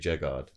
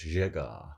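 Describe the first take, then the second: First: The name is said with English pronunciation. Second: The name is said with French pronunciation. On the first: The speaker calls it wrong. "I always anglicised it. I always say Jegard" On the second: The speaker calls it right. "It's French. So it's Jegard"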